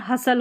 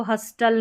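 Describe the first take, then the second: First: हसल with the T left silent; no T sound in हसल. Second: हस्टल with the T pronounced; an audible T after the S in हस्टल; wrongly sounded T. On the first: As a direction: say हसल as "HUSS-ul". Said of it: "ये टी silent है". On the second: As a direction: say हस्टल as "HUS-tul". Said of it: "इसको हस्टल नहीं पढ़ेंगे". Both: Shown as a demonstration.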